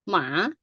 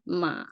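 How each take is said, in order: First: The syllable is said with a rising tone. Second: The syllable is said with a low tone. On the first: "rising right" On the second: "low tone ma"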